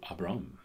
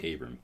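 First: The name is said with a Hebrew pronunciation. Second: The name is said with an American pronunciation. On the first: "or is in the Hebrew" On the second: "we'll say Abram, because we're American"

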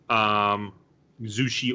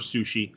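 First: The word begins with a voiced Z sound. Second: The word begins with a voiceless S sound. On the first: "I've seen it with a Z" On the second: "I've seen it with an SU"

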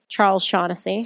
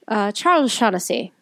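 First: It is said in the speaker's ordinary accent. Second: It is said in an Irish accent.

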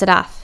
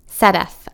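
First: The name is clipped and short. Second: The first vowel is long and drawn out. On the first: "she repeats incorrectly" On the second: "easing into the first A, pronouncing it the way you would a smile"

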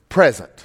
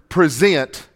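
First: The stress is on the first syllable. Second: The stress is on the second syllable. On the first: It means a gift. "as in a Christmas present" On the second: It means to bring into someone's presence. "Instead of saying the word present"

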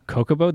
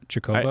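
First: The word begins with a 'k' sound. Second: The word begins with a 'ch' sound. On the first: The speaker calls it wrong. "I say cocobo" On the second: The speaker calls it right. "There's a CH at the beginning"

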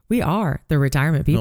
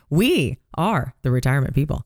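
First: The stress is on "are". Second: The stress is on "we".

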